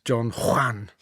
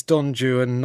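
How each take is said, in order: First: "Don Juan" said Spanish-style as "Don Hwan"; Spanish pronunciation. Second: "Don Juan" said as English "Don JOO-un"; anglicised pronunciation. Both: Shown as a demonstration. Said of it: "not Don Juan".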